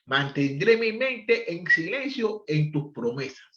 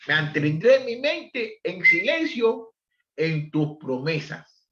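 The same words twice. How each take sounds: First: Said in the usual way. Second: Slow scripture reading. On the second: Shown as a demonstration.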